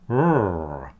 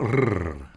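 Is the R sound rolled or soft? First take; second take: soft; rolled. First: The R is a soft, gentle sound. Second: The R is a strong rolled trill. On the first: The speaker calls it right. "You put your teeth on your bottom lip and go R" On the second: The speaker calls it wrong. "It's not R"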